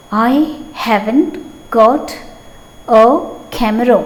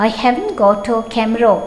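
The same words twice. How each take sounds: First: Word by word, each word on its own with long gaps; slow, broken-up classroom dictation. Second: Said in the usual way. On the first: Shown as a demonstration. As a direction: dictate it slowly so the class can write.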